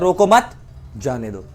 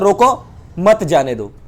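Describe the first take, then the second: First: There is a pause after 'mat'. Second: There is a pause after 'roko'.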